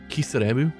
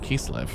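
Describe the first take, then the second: First: The name is said as four Japanese-style syllables. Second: The name is said as two English-style syllables.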